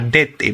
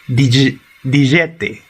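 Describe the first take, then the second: First: The first vowel is a plain e sound. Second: The first vowel is an ije glide sound. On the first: This is the Ekavian dialect form. "Esa es la pronunciación de Ekavski" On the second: This is the Ijekavian dialect form. "es la pronunciación Ijekavski"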